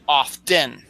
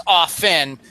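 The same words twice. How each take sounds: First: "often" as OFF-ten, slowly; slow "often" broken as off-ten; sounded T. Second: "often" as OFF-en; careful "often" with no T sound; silent T. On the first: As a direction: speak the T in "often". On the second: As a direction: leave the T out of "often". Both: Shown as a demonstration. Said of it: "The T is silent".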